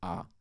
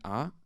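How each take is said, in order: First: The vowel starts low and falls lower. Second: The vowel starts high and rises higher. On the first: "a grave accent means um, a low falling tone" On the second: "an acute accent means um, um, high rising tone"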